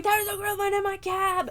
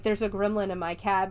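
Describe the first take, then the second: First: Hammed-up terrified cry; mock scream. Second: Said in the usual way. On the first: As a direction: squeal it high as an imitation of screaming. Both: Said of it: "he just starts screaming".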